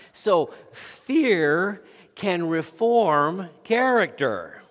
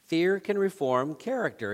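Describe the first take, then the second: First: Drawn out, slow and louder; slow emphatic declaration. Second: Said in the usual way. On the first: Shown as a demonstration. Preacher drives home the point to the congregation, slow and loud. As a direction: lean on every word to land the point. Preacher repeats his key line.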